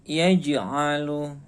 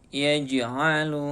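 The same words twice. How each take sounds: The two takes are said the same way.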